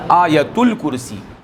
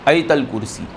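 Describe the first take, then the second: First: The vowel after 'Ayat' is a 'u' sound. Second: The vowel after 'Ayat' is an 'a' sound. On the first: The speaker calls it right. "क्या बोलना चाहिए? आयतुल कुर्सी" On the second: The speaker calls it wrong. "नहीं बोलना चाहिए आयतल कुर्सी"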